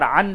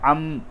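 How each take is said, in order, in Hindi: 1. अक्षर का अंत n की आवाज़ से होता है। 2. अक्षर का अंत m की आवाज़ से होता है। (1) "अन नहीं बोलेंगे" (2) "बल्कि आइन मीम ज़बर अम"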